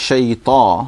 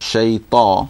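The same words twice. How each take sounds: No difference in how they are said.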